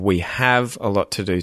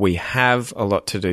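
First: The H sound in 'have' is clearly pronounced. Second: The H sound in 'have' is clearly pronounced.

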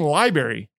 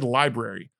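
First: The R after the b is dropped. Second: The R after the b is pronounced. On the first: "people are saying library" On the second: "I've always said library, and I think that's the correct way"

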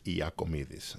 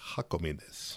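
First: The name is said the Greek way. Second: The name is said the Spanish way. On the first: "in Greek, it's Iakomidis. So that's the more correct way to say it" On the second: "In the Spanish, they call me Jacomides"

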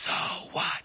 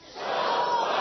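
First: It is whispered. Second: It is said loudly.

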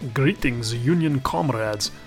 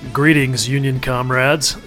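First: It is said in a put-on Russian accent. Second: It is said in the speaker's plain accent.

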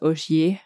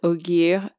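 First: The name is pronounced the French way. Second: The name is pronounced the English way. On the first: The speaker calls it wrong. "and not Ogier" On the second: The speaker calls it right. "it's Ogier"

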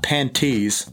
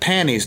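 First: The word is said with the T sound. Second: The word is said without the T sound. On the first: The speaker calls it wrong. "not panties" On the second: The speaker calls it right. "P-A-N-N-I-E-S. ... I'm saying panties"

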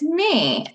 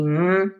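First: The word ends in a long 'ee' vowel. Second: The word ends in a short 'eh' vowel. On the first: The word is read as a whole from memory. The speaker calls it right. "But it's me" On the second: The word is sounded out letter by letter. The speaker calls it wrong. "If you spelled it or sounded it out phonetically, it would be meh"

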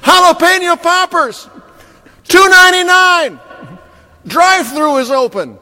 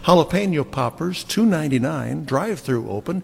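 First: It is read loudly, each phrase exclaimed. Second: It is read in a plain, normal voice.

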